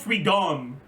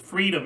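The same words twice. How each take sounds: First: The stress is on the second syllable. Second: The stress is on the first syllable. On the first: The speaker calls it wrong. "it puts the accent on the wrong syllable. Like it's not it's not freedom" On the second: The speaker calls it right. "It's it's freedom"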